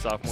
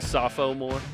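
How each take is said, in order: First: The middle O is dropped, giving two syllables. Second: The middle O is pronounced, giving three syllables.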